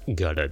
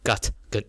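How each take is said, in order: First: The two words are linked into one. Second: The two words are said separately. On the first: The speaker calls it right. "它是gutted" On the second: The speaker calls it wrong. "它不是gut 跟"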